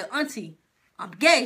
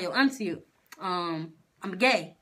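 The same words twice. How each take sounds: First: Firmer repeat. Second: Low-key, halting admission; hesitant confession. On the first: Retelling coming out to auntie a second time, firmer. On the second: Retelling coming out to auntie, hesitant. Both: Retold or imitated.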